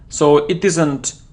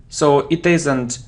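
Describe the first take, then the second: No difference in how they are said.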